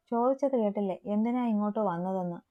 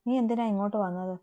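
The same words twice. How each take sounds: First: A storyteller's restrained shout; mild mock yell. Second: Blunt, curt demand, stress on നീ; harsh question. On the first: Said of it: "അതൊരു അലർച്ചയായിരുന്നു". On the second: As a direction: ask it with no softness at all. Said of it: "ഒട്ടും മയമില്ലാതെയുള്ള ജോയലിൻ്റെ ചോദ്യത്തിന്". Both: A narrator's reading.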